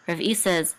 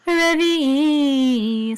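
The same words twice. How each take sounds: First: Said in the usual way. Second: "revi'i" chanted high and slow; chanted trope name. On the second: Shown as a demonstration. Teacher chants the revi'i trope for student, slow chant. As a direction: sing "revi'i" as its own trope.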